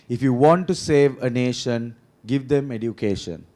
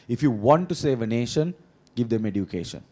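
First: It is said slowly. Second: It is said at a normal speed.

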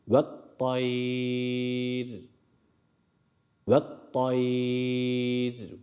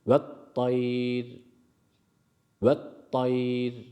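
First: The long vowel is held for a medium length. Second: The long vowel is held only briefly. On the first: "Tavasut ile 2 veya 3 elif yapalım" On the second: "Kasır ile yapalım. Bir elif miktarı uzattıktan sonra"

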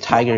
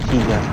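First: Tiger is said with an English pronunciation. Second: Tiger is said with a German pronunciation. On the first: "Actually it's Tiger in English" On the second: "but the Germans pronounce it as Tiger"

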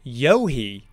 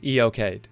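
First: The name sounds like 'yo-hee'. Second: The name sounds like 'ee-o-kade'. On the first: This follows the Old Irish origin. "the word actually seems to come from Old Irish, and I've seen that described as Yohi" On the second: This follows the British usage. "I'm going to stick with the British version, which is Eocade"

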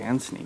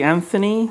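First: The middle consonant is a plain t. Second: The middle consonant is not a plain t. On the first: This is how the speakers themselves say it. "But we say Anthony, definitely. Got to pronounce that T" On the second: This is how Americans say it. "I think Americans can say Anthony"

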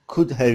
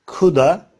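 First: The word have is said in full. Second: Have is reduced to a short uh sound. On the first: "Could ve could have için ise" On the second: "coulda, could've olarak telaffuz edebiliriz"

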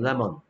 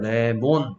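First: The second vowel is reduced and weak. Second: The second vowel is a full, clear o sound. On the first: The speaker calls it right. "영어 발음은 레몬" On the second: The speaker calls it wrong. "그래서 한국 사람들은 레몬"

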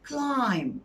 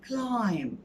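Both takes have the same delivery.

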